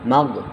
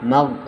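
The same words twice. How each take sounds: Both takes have the same delivery.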